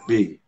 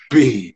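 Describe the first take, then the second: First: The B is said thinly and lightly. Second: The B is said heavily and forcefully. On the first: The speaker calls it right. "tipis-tipis saja" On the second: The speaker calls it wrong.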